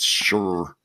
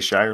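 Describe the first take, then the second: First: The word is said the British way. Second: The word is said the American way. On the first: The speaker calls it right. "I realized that it's" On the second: The speaker calls it wrong. "most Americans know we're not supposed to say Shire like that"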